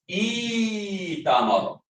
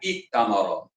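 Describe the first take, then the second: First: The first vowel is long with no catch. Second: A glottal catch closes the first syllable before t. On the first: The speaker calls it right. "Bacaannya ialah itamara" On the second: The speaker calls it wrong. "bacaan yang betulnya bukan iktamara, salah"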